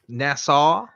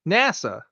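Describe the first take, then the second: First: It is pronounced like the island name Nassau. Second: It is pronounced as the usual name NASA. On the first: The speaker calls it wrong. "you pronounce it like the island" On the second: The speaker calls it right. "How do you say it?"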